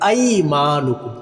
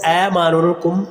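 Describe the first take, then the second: First: ऐमानुकुम with the मा held long, chanted slowly; correct tajweed. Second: ऐमानुकुम with a short, wrongly coloured ai; the mistaken ऐमानुकुम; wrong reading. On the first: Teacher giving the right reading, slow chant. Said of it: "मीम को लंबा करेंगे". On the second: Teacher showing the wrong pronunciation to avoid. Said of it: "इसको ऐमानुकुम नहीं पढ़ेंगे". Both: Shown as a demonstration.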